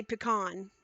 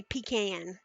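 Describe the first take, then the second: First: Pecan said as puh-KAHN, stress on the second part; own pronunciation. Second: Pecan said as PEE-can, long ee first, short a; grandma's pronunciation. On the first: Shown as a demonstration. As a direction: say pecan with a short first vowel and a long ah. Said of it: "I say pecan". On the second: Retold or imitated. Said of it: "My grandma used to say pecan".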